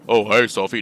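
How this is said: It is spoken in a deep voice. "No, that's for Vincent. Vincent's deep voice"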